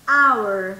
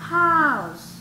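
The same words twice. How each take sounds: First: HOUR said loudly as "our", no h; h muda. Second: HOUSE louder, with a clear j-like h; h como jota. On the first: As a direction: start OUR straight on the ah vowel. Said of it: "esa era silenciosa". (our fuerte, con hache muda) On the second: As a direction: model HOUSE with its h fully sounded. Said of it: "es con una J". (house fuerte, con la h como jota) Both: Shown as a demonstration.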